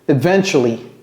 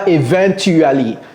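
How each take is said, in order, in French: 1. Il se prononce à l'anglaise. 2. Il se prononce à la française.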